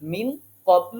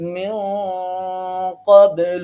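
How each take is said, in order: First: The n is pronounced fully and clearly. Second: The n is hidden with a nasal hum. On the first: The speaker calls it wrong. "মিন কবলু আর পড়া যাবে না" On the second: The speaker calls it right. "নুন সাকিনটাকে গোপন করে গুন্নার সাথে পড়তে হবে"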